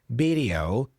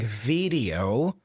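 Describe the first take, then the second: First: The word begins with a B sound. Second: The word begins with a V sound. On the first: The speaker calls it wrong. "with a B sound" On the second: The speaker calls it right. "with a V sound"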